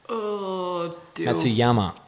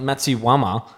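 First: The name is said without a w sound. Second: The name is said with a w sound. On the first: The speaker calls it right. "I'm pretty sure there's no W in there" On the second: The speaker calls it wrong. "Not Matsuyama"

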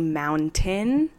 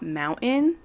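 First: It is said in a neutral American accent. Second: It is said in a strong Utah accent. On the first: The speaker calls it right. "I did say mountain" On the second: The speaker calls it wrong. "and not mountain"

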